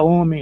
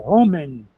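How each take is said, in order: First: "homem" starting straight on the vowel; silent H. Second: "homem" with an audible breathed H at the start; H pronounced. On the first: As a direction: drop the H of "homem" as in normal Portuguese. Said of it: "E a gente fala homem". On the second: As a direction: puff out the written H in "homem". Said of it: "literalmente deveria ser". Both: Shown as a demonstration.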